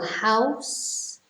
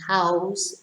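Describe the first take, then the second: First: The word ends in a hissing s sound. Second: The word ends in a buzzing z sound. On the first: It names the place where someone lives. "the noun" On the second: It means giving someone a place to live. "the verb"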